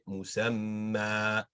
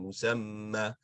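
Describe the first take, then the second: First: The final vowel is held for two counts. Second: The final vowel is cut short. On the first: The speaker calls it right. "always being stretched for two counts" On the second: The speaker calls it wrong. "instead of saying"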